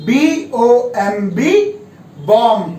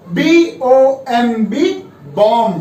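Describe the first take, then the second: No difference in how they are said.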